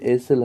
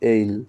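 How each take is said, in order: First: The word is said with an s sound. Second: The word is said without an s sound. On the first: The speaker calls it wrong. "এখানে এই উচ্চারণটা কিন্তু এইসেল হবে না" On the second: The speaker calls it right. "এর উচ্চারণ হবে এইল"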